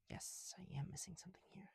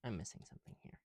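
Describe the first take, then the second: First: Whisper. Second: Said in the usual way. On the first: Real, not acted. Answers self, repeats line.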